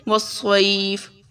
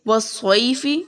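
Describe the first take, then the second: First: "وَالصَّيْفِ" as was-saif, ai glide held; elongated stop. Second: "وَالصَّيْفِ" with final i voiced; full word ending. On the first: Teacher showing the stop, "وَالصَّيْفِ" lengthened without final vowel. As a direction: stretch the middle of "وَالصَّيْفِ", end on bare f. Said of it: "اس کو ہم لمبا کریں گے". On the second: Teacher giving the example unstopped, "وَالصَّيْفِ" ending in -fi. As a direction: say "وَالصَّيْفِ" as was-saifi. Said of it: "اب ہم اسے پڑھیں گے". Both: Shown as a demonstration.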